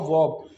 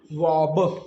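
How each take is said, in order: First: Said in the usual way. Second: वॉब drawn out slowly, final ब released as "buh"; sounded out. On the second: Shown as a demonstration. Teacher sounding out वॉब for learners, slowly with released final ब. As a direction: stretch वॉब and release the last ब separately. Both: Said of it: "बनता है दोस्तों हमारा क्या".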